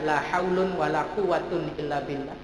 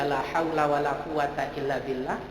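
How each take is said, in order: First: The nouns end in an '-un' sound. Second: The nouns end in a short 'a' vowel. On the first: "Boleh dibaca" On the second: "Boleh dibaca"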